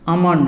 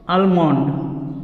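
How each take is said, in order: First: No L sound is pronounced after the first vowel. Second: An L sound is pronounced after the first vowel. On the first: The speaker calls it right. "एल जो है ये silent है" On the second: The speaker calls it wrong. "ये गलत है"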